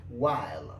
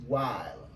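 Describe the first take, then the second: First: "while" said as wail, with a silent h; English while. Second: "While" repeated low, said as wail; English while. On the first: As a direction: round the lips for "while", like wail. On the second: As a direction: model "While" with a low falling tune. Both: Shown as a demonstration. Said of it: "les prononce comme O".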